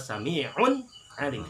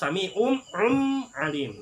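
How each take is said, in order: First: The n is pronounced clearly and distinctly. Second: The n is turned into an m sound. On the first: The speaker calls it right. "Tapi yang benar ada" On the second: The speaker calls it wrong. "enggak bisa juga dibaca iklab"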